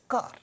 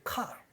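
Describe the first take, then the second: First: The opening k has no puff of air. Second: The opening k has a puff of air. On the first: "car will never be aspirated in Indian English and it will be spoken as car" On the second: "is going to sound aspirated initially and it would end up sounding like car"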